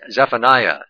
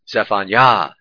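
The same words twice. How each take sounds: First: The stress falls before the last syllable. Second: The stress falls on the last syllable. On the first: This is the common Protestant way of saying it. "How do they say that in Protestants?" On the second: The divine name at the end is emphasized. "Yahweh is emphasized as the last syllable"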